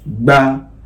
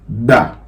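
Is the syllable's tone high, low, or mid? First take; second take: mid; low. First: The syllable is said on a mid tone. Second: The syllable is said on a low tone. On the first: "Now let's go on with the middle tone" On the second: "We are going to start with a low tone"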